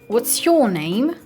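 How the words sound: It is spoken in a British accent. "British people would say"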